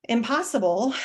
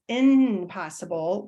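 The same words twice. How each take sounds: First: Said in the usual way. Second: "impossible" with a held N in place of M; harder N version. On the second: Shown as a demonstration. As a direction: say "impossible" as in-possible, drawing out the N. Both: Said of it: "which is just harder to say".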